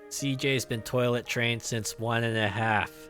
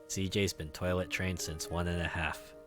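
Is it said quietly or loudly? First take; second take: loudly; quietly. First: It is said more loudly. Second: It is said quietly and grudgingly.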